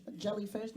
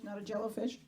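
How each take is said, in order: First: Jellyfish with jelly; jellyfish said right. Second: Jellofish with jello; rising jellofish as the wrong form; mocked jellofish. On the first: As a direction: say jellyfish carefully. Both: Shown as a demonstration.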